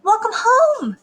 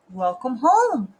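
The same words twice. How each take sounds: First: High, loud greeting; lilting motherly welcome; cheery mother. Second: Lightly voiced dad, slow; unhurried fatherly welcome. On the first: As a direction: greet your child in a singsong high voice. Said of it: "said her mother". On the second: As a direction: greet your child slowly, in an easy voice. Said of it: "said her father". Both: A narrator's reading.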